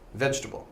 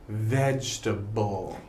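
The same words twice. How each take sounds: First: The word is said a little faster. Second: The word is said slowly and carefully. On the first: "If I say it a little quicker" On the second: "If I say it close uh, and slowly"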